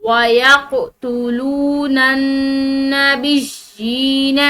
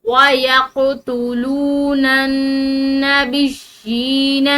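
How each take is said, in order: No difference in how they are said.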